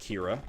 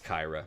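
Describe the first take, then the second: First: The first vowel sounds like 'ee'. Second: The first vowel sounds like 'eye'. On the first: The speaker calls it wrong. "I like Kira. So I'm going with Kira" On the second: The speaker calls it right. "It's Kyra"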